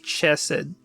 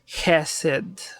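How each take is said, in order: First: The first consonant is not made far back. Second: The first consonant is made far back. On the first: The speaker calls it wrong. "we don't say Chesed" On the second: The speaker calls it right. "with that thing at the back of the mouth"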